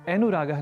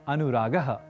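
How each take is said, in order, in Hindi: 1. छोटे स्वर 'e' जैसे सुनाई देते हैं। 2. छोटे स्वर 'a' जैसे सुनाई देते हैं। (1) "अनुरागः नहीं" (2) "अनुरागः यह कहना है"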